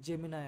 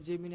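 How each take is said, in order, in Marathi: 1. शब्द 'eye' आवाजाने संपतो. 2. शब्द 'ee' आवाजाने संपतो. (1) "पण त्याचा उच्चार जेमिनाय आहे" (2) "आपण सरळ सरळ जेमिनी असा उच्चार करतोय"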